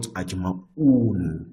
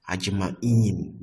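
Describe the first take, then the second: First: Ajma'un with a drawn-out -un ending, said slowly; teacher slowly gives the wrong form ajma'un, ending in -un. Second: Ajma'in with a long -in ending, the genitive; teacher gives the right form ajma'in, ending in -in; correct ending. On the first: Teacher warning students, slowly drawing out the wrong ajma'un. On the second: Teacher correcting students, stating ajma'in with the -in ending. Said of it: "not ajma'un". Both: Shown as a demonstration.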